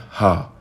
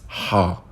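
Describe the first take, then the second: First: The h sound is like a plain English h. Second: The h sound is unlike any English h. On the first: The speaker calls it wrong. "the closest I can get will be H A, ha, but it's not ha" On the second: The speaker calls it right. "it's ha"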